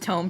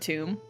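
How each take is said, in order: First: The vowel sounds like 'oh', as in home. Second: The vowel sounds like 'oo', as in tomb. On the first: The speaker calls it right. "It is tome" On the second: The speaker calls it wrong. "Or Tomb? Did I say tomb?"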